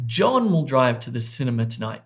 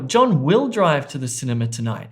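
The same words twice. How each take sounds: First: The stress falls on the word John. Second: The stress falls on the word will. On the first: It is this person, not someone else, who will drive. "not Sally" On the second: He has changed his mind and will now go. "He's changed his mind"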